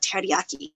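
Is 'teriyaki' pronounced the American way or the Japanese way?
Japanese. The word has a Japanese pronunciation. This is how the father did not say it. "not teriyaki"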